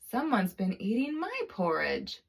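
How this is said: It is said in a medium-sized voice. "in her medium-sized voice said"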